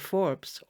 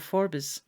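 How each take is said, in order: First: The name has its standard pronunciation. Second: The name has its local Scottish pronunciation.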